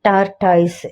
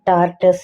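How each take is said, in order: First: The last syllable sounds like 'toys'. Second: The last syllable is a short 'tus'. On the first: The speaker calls it wrong. "ஆனா அது தவறான உச்சரிப்பு" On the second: The speaker calls it right. "டார்டஸ் என சொல்லுவாங்க"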